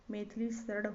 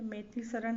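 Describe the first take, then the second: First: Maithili शरण ending in retroflex flap; correct pronunciation. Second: Maithili शरण ending in dental n; wrong pronunciation. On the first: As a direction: curl the tongue at the end of शरण. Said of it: "होता है". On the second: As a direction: close शरण with a plain n. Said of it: "नहीं होता है". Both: Shown as a demonstration.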